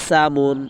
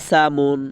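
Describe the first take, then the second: No difference in how they are said.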